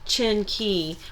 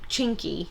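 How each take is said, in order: First: The two syllables are said slowly and separately. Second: The two syllables are run together quickly.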